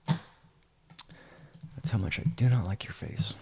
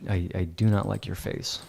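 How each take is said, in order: First: Slow, breathy whispered threat. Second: Said in the usual way. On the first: Pretend. Editor jokingly telling an imaginary student, whispered slowly. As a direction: whisper it slowly, like a secret menace.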